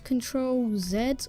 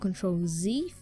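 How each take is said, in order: First: The letter Z is said the British way. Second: The letter Z is said the American way.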